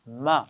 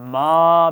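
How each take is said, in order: First: The syllable is said at a relaxed length. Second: The vowel is drawn out long. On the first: The speaker calls it right. "आराम से पढ़ा था" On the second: The speaker calls it wrong. "बहुत लंबा भी नहीं किया"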